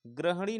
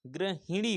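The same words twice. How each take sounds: First: ग्रहणी with no इ after ग्र; wrong pronunciation. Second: गृहिणी with ऋ and a short इ; correct pronunciation. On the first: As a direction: say ग्रहणी as the mistaken form. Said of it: "ग्रहणी नहीं होता है". (गलत उच्चारण ग्रहणी) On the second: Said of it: "छोटी की मात्रा रहेगी". (सही उच्चारण गृहिणी) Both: Shown as a demonstration.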